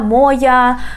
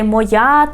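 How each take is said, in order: First: The stress falls in the western regional position. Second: The stress falls in the standard position. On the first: This is how people in the west of the country say it. "people in the west of Ukraine, they can say" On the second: This is the correct standard form. "it's correct to say моя"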